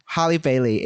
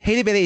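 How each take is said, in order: First: "Halle" said with an open A, like "Harley" without the R; British-style "Halle Bailey", first vowel AH; British pronunciation. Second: "Hailey" said with a long AY, like "hay"; American-style "Hailey Bailey", first vowel AY; American pronunciation. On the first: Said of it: "is British pronunciation". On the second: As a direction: say "Hailey" the American way, rhyming with "daily". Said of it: "is American pronunciation". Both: Shown as a demonstration.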